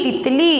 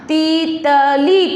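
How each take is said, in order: First: Said in the usual way. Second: तीतली split slowly into ती...त...ली; syllable by syllable. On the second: Shown as a demonstration. Teacher blending a word for pupils, syllable by syllable. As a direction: draw out each syllable of तीतली. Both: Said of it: "शब्द क्या बना अपना?".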